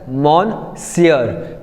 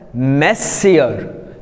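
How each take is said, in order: First: The first syllable is a full 'mon' sound. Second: The first syllable is a reduced 'muh' sound. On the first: The speaker calls it wrong. "they pronounce the word as monsieur, which is wrong" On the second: The speaker calls it right. "but actually it is pronounced as messier"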